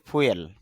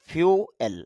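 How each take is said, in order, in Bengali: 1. শব্দটি সাধারণ 'foo' ধ্বনি দিয়ে শুরু হয়। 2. শব্দটি 'fyoo' ধ্বনি দিয়ে শুরু হয়। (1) "এই শব্দটাকে আমরা সচরাচর বলি ফুয়েল" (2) "তবে তার শুদ্ধ উচ্চারণ যেটা"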